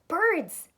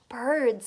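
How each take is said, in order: First: Higher, louder Birds with wonder; Birds! exclaimed in delight; the frog's excited reveal; amazed exclaim. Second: Mysterious. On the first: Frog repeats with wonder. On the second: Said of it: "said the frog mysteriously". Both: Acted.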